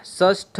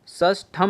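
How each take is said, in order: First: षष्ठ with no final "m"; correct pronunciation. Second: षष्ठम closed with "-am"; wrong pronunciation. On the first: Teacher correcting the word, षष्ठ ending without "m". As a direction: end षष्ठ on a slow, aspirated "ṭha". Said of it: "षष्ठ होता है". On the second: Teacher showing the error, षष्ठम ending in "m". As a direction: add a final "m" to षष्ठम, drawn out slowly. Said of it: "षष्ठम नहीं होता है". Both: Shown as a demonstration.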